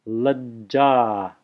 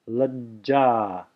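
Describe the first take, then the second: No difference in how they are said.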